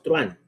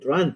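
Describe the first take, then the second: First: The word is said as two syllables. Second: The word is said as one syllable. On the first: This is how it is said in the Americas. "Nosotros decimos truán" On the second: This is how it is said in Spain. "En la castellana en Madrid dicen truán"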